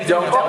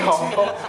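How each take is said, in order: First: The word starts with a j sound. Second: The word starts with an h sound.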